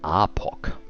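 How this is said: The name is said with a German pronunciation. "I also can do it more German"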